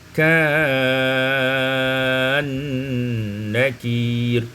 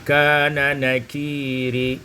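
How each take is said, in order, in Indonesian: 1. Kedua bunyi n menyatu menjadi satu. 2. Kedua bunyi n tetap dipisah.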